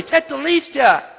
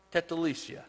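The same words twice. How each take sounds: First: High, ringing shout of triumph; loud, high-pitched victory cry; loud proclamation. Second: Said in the usual way. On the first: Acted. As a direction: cry it out for everyone to hear. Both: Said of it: "he says it loudly".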